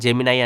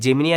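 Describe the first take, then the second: First: The word ends with an 'eye' sound. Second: The word ends with an 'ee' sound. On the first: This is how the company itself says the name. "Google దీన్ని pronounce చేయడం జెమినై అని" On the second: This is how people usually read the name. "మామూలుగా జెమినీ అని కనిపిస్తుంటది"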